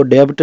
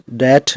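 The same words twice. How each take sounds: First: डेब्ट with the b sounded before t; wrong pronunciation shown. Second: डेट said as "det", no b; silent b said right. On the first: Teacher warning students against this wrong form, b sounded. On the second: Teacher giving students the correct form, b silent. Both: Shown as a demonstration. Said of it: "इसको डेब्ट नहीं बोलते".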